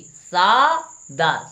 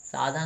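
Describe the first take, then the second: First: सादा very slow, plain d without breath; slow correct form. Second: साधा with a breathy dh; wrong form shown. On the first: Teacher modelling the fix after the wrong take, slow. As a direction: stretch सादा out, clean unaspirated d. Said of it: "क्या होना चाहिए?". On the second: Teacher showing the wrong spoken form, quick. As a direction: say साधा, letting breath out after the d. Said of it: "साधा नहीं होना चाहिए". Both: Shown as a demonstration.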